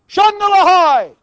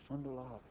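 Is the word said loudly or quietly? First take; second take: loud; quiet. First: The word is said loudly. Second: The word is said quietly. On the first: "Maybe I should say it louder" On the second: "Maybe I should say it quieter"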